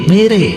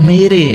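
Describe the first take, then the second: No difference in how they are said.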